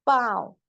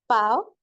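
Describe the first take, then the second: First: पाँव as a longer nasal glide; nasalised vowel. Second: पाँव short as "paao", no nasal; non-nasal vowel. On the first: Urdu teacher contrasting for learners, nasal vowel. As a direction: send the vowel of पाँव into the nose. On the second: Urdu teacher contrasting for learners, oral vowel. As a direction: keep पाँव oral and brief. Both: Shown as a demonstration. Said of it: "फर्क समझे".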